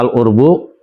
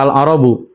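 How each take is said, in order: First: First vowel is u; the second consonant has no vowel. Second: Both of the first two consonants take the vowel a.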